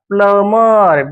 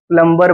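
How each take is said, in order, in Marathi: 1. m नंतर b चा आवाज ऐकू येत नाही. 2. m नंतर b चा आवाज ऐकू येतो. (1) "बीचा उच्चार सायलेंट" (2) "प्लंबर बोलायचं नाही"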